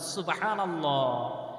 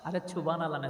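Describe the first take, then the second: First: It is said loudly and strongly. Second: It is said quietly and weakly.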